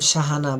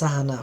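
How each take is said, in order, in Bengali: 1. নামটি 'sh' ধ্বনি দিয়ে শুরু। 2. নামটি 's' ধ্বনি দিয়ে শুরু। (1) "নাম শাহানা" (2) "বললেন সাহানা, ... ভুল হইল"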